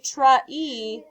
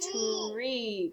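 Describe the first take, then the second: First: The word is broken into two separate parts. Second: The word is blended into one smooth syllable. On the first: The speaker calls it wrong. "we don't say tra e" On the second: The speaker calls it right. "we say tree"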